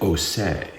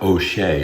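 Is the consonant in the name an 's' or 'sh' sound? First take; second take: s; sh. First: The name is said with a plain 's' sound. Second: The name is said with an 'sh' sound. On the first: This is how the name's bearer claims it is said. "claim that the H was silent" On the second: This is the usual way the name is said. "It's not O'Shea"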